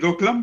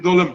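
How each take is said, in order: First: A k sound comes before the l. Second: No k sound comes before the l. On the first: The speaker calls it wrong. "Some people call it Doklam" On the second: The speaker calls it right. "the actual pronunciation is Dolam"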